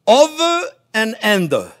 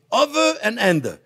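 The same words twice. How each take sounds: First: Over and under, drawn out slowly; slow demo. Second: Said in the usual way. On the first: Shown as a demonstration. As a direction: spell out each word slowly for the learner. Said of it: "and you go".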